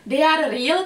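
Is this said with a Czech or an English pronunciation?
Czech. It is said with a Czech pronunciation. The speaker calls it wrong. "když to chcete říct jako po češtině"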